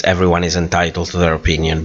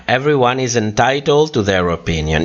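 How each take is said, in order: First: Fast, rote repetition of a stock phrase; quick dismissive recitation; rattled off. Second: Said in the usual way. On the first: Shown as a demonstration. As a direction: reel it off quickly like a cliché. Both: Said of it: "we always say this".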